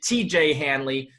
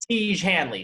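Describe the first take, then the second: First: The first name is spelled out as two letters. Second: The first name is said as one syllable. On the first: The speaker calls it wrong. "I pronounced it T J Hanley because I misread the ad copy" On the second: The speaker calls it right. "really it's pronounced like Siege, like Tej"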